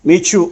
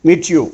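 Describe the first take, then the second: The two takes are said the same way.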